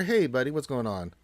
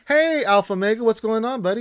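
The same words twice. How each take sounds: First: Said in the usual way. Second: High, loud, cheerful hello to a viewer; excited greeting. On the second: Real, not acted.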